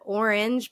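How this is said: The first vowel sounds like 'or'. It is the standard pronunciation. The speaker calls it right. "R versus or"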